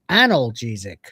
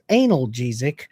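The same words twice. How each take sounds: First: The word starts with a short 'an' sound. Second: The word starts like the word 'anal'. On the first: The speaker calls it right. "Now it's pronounced analgesic" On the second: The speaker calls it wrong. "not analgesic. The pills go in your mouth"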